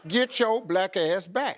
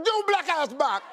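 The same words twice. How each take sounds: First: Slow it right down; slow laughing demo of the line. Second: Quick mock patois; rapid mock patois line; said fast. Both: Shown as a demonstration. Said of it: "you just say it real fast".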